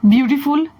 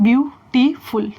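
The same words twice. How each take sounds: First: Said in the usual way. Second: "beautiful" split into three separate beats; broken into syllables. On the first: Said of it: "तो मैं एक syllable में बोल रही हूँ नहीं". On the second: Shown as a demonstration. Teacher showing the word takes three goes, syllable-by-syllable. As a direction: pause between each syllable of "beautiful". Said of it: "तीन बार ले रही हूँ समय".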